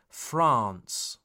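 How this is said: The A vowel is long. The speaker calls it right. "The A sound is long"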